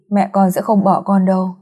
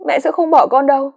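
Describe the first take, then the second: First: Gentle comfort. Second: Put-on high, pleading girl's voice; cling to hope through tears; tearful denial. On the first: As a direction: soothe a grieving child. Neighbor comforts girl. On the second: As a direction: daughter insisting her mother won't leave, high and tearful. Daughter in denial. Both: A narrator's reading.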